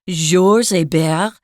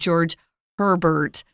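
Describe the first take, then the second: First: The name is said the French way, no H. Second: The name is said the American way, with H and R. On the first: "That's the French pronunciation" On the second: "I actually heard some Americans pronouncing it George Herbert"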